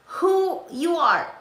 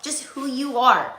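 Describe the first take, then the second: First: Who you are, higher and drawn out slowly, leaning on who; slow emphatic repeat. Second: Said in the usual way. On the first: Shown as a demonstration. Telling viewers to just be themselves, slow emphatic repeat. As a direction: let it land slowly, pitch lifted on who.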